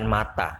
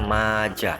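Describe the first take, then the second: First: The middle consonant is a t sound. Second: The middle consonant is a j sound. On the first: The speaker calls it wrong. "bukan mata" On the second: The speaker calls it right. "sehingga dibaca maja"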